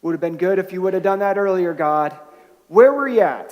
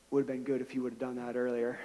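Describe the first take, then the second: First: Louder, pointed complaint rising to a cry; complaint to God. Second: Quiet, quick, dry aside; dry deadpan quip. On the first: Believers voicing frustration to God, louder mock complaint. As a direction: let the hurt push out at God. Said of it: "you know how our friend felt". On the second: Injured man wryly telling the pastor, quiet dry deadpan. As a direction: toss it off wryly under your breath. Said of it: "he looks over at me and he says". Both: Retold or imitated.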